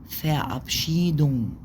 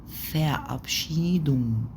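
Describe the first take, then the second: Both takes have the same delivery.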